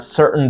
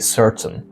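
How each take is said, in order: First: The T is a glottal stop. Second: The T is fully released. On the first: The speaker calls it right. "people say there are certain diseases" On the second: The speaker calls it wrong. "They don't say certain"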